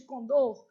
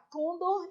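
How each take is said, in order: First: Condor stressed on the last syllable, con-DOR; correct stress. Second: Condor stressed on the first syllable, CON-dor; common mispronunciation. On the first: Teacher giving students the proper form, correctly stressed. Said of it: "em vez de condor". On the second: Teacher quoting a frequent error to students, misstressed. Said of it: "falar condor em vez de condor". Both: Shown as a demonstration.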